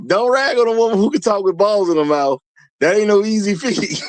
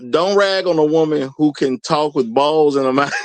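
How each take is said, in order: First: Higher pitched, words bent by laughter; laughing. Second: Said in the usual way. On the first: Real, not acted. Host rereading a viewer's joke, laughing through it. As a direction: read it again as you crack up.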